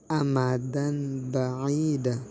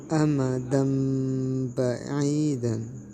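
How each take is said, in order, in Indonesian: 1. Bunyi n biasa terdapat sebelum huruf b. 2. Bunyi m sengau terdapat sebelum huruf b. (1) "Tidak dibaca amadan ba'ida" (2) "tetapi harus dibaca amadam ba'idan"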